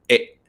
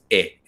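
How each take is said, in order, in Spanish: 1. La vocal termina con un corte brusco y gutural. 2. La vocal termina suavemente, sin corte. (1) "una E como cortada" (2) "no es E"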